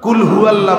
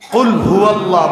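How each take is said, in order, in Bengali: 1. প্রথম শব্দটি সাধারণ সামনের k দিয়ে শুরু হয়। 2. প্রথম শব্দটি গভীর গলার q দিয়ে শুরু হয়। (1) "কুল হুয়াল্লাহ বললে হয় খান" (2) "কুল হুয়াল্লাহ বললে অর্থ হলো বলুন"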